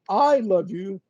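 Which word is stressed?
I. The stress is on the word I. Nobody else in the world loves you. "means that nobody else in the world loves you"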